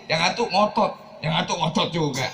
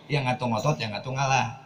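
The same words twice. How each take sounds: First: Slightly raised, insistent pitch; mild stubborn insistence. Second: Calm yielding. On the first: Preacher shows a couple both refusing to budge, insistent. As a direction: push it a little, both sides digging in. Demo of two stubborn spouses. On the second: Preacher shows one spouse giving in to the other, calm. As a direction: let the tension drop as one gives way. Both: Shown as a demonstration.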